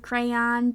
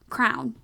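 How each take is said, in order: First: Its vowel rhymes with the word Don. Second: It sounds exactly like the word crown. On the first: "like Don" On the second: "they pronounce it as crown"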